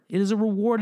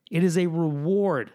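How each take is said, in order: First: "It is a reward" higher, "reward" lifted with a rising end; emphatic repeat. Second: "It is a reward" spelled out slowly, stress on "is"; slow deliberate statement. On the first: Driving the point home to musicians, a rising emphatic repeat. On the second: Telling musicians, a measured first statement of the point. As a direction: lay down "It is a reward" slow and firm. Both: Real, not acted.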